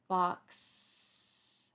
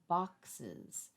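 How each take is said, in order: First: The plural ending is added without a vowel. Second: The plural ending is added with an extra vowel. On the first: The speaker calls it wrong. "that's not how I pronounce box, is it?" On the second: The speaker calls it right. "I add another vowel"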